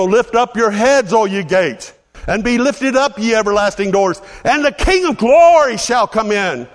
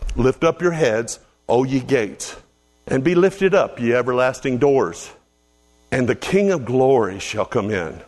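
First: It is said noticeably louder. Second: It is said at normal loudness.

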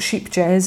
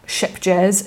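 First: The name sounds like sheep jazz. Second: The name sounds like ship jazz. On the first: "it's not sheep jazz" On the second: "it's not ship jazz"

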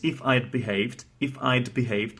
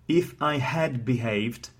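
First: The word 'had' is contracted to 'd. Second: The word 'had' is said in full.

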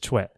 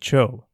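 First: The name ends in an o sliding into e. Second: The name ends in a plain o vowel. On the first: The speaker calls it right. "the correct pronunciation is Choe" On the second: The speaker calls it wrong. "many people will actually call him Cho"

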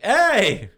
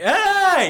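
First: It is called out less loudly. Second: It is called out much louder.

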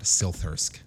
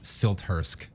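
First: The T is not pronounced as a separate sound. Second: The T is pronounced as a separate sound. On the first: The speaker calls it wrong. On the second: The speaker calls it right.

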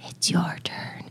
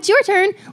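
First: The words are said in a slow, eerie tone. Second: The words are said in a light, friendly tone. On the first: The message feels threatening and scary. "And that's creepy" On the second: The message feels harmless and not scary. "it doesn't really scare you as much"

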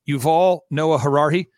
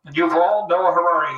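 First: It is said in a normal speaking voice. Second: It is said loudly through a megaphone.

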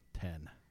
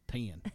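First: It is said with a standard accent. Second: It is said with a Texas accent.

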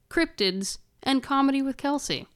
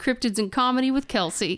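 First: It is said at a slower pace. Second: It is said at a faster pace.

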